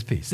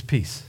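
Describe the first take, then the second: First: A very soft, low peace; hushed peace. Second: Soft peace. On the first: Jesus greeting his frightened disciples, hushed and soft. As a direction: breathe it out gently, much quieter. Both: Pretend. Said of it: "He says".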